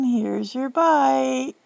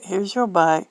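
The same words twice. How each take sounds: First: Put-on slow, higher baby-feeding voice; airplane spoon game. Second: Said in the usual way. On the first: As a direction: coax it like feeding a toddler.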